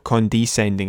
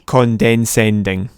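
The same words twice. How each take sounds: First: The middle syllable sounds like 'des' without an n. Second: The middle syllable sounds like 'dens' with an n. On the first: The speaker calls it right. "condescending as in to descend, to look down" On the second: The speaker calls it wrong. "Which is like a combination of condensation or condensing and condescending"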